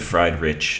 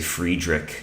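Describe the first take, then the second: First: The name is said as English 'fried rich'. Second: The name is said as one blended word. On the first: "fried rich is like very wrong" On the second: "I say Friedrich, and I know that's not the correct German pronunciation"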